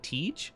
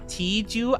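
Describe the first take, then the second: First: The name ends without any final vowel sound. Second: The name ends with a pronounced final vowel. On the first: The speaker calls it right. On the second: The speaker calls it wrong.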